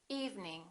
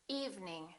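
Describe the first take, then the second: Both takes have the same delivery.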